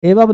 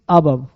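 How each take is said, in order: First: The word begins with an 'eh' vowel. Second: The word begins with an 'uh' vowel. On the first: The speaker calls it wrong. "एबव नहीं" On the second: The speaker calls it right.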